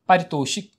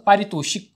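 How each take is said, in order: Both takes have the same delivery.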